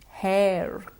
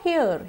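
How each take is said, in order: First: The vowel glides from e into a schwa. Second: The vowel stays single without gliding. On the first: The speaker calls it right. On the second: The speaker calls it wrong.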